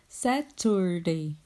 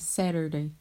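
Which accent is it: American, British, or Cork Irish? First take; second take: British; American. First: It is said in a British accent. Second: It is said in an American accent.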